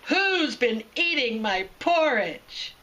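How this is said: It is said in a loud, deep, booming voice.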